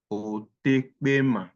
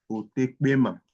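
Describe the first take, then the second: First: Otekpema stretched slowly; slow pronunciation demo. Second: Said in the usual way. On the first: Shown as a demonstration. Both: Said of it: "It's pronounced as o".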